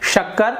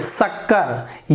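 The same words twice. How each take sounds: First: It begins with a hushing 'sh' sound. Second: It begins with a hissing 's' sound. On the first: The speaker calls it right. "यही सही उच्चारण है" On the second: The speaker calls it wrong. "ये गलत हो गया, जीभ को मैंने दांत के नीचे लगाया"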